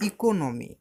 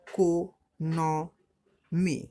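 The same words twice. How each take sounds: First: Said in the usual way. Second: "economy" very slow, four separate beats; split into syllables. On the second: Shown as a demonstration. Teacher counting syllables for pupils, "economy" slowly split in four. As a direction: break it up as ই-কো-ন-মি with clear pauses. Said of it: "তো এটা কবার হচ্ছে? চারবার".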